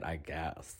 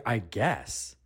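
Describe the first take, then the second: First: Low, much softer, dismissive aside; trailing off, mock-unimpressed; grudging clerk. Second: Full-voiced, questioning "I guess"; acted offence at a grudging answer; indignant echo. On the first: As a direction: imitate a clerk grudgingly conceding. Clerk's grudging answer, retold. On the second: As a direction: throw the words back in disbelief.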